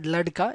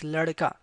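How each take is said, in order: First: The middle consonant is a plain d sound. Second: The middle consonant has a slight r-like flap. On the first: The speaker calls it wrong. "it's not ladka" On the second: The speaker calls it right. "it's ladka"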